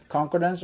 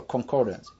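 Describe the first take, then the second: First: Concordance with the stress on CON; stress on first syllable. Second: Concordance with the stress on COR; stress on second syllable. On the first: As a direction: lean on the opening syllable of Concordance. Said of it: "how do you say that". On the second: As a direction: lean on the middle syllable of concordance. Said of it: "second syllable". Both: Shown as a demonstration.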